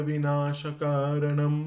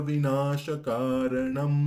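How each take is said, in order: No difference in how they are said.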